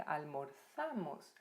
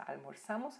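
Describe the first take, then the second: First: "Almorzamos" slow, split before a stressed ZA; stressed syllable shown. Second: Said in the usual way. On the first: Shown as a demonstration. Teacher shows the tonic syllable, "Almorzamos" slowly broken at ZA. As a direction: draw out "Almorzamos" as al-mor-ZA-mos. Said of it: "esta é a sílaba tônica".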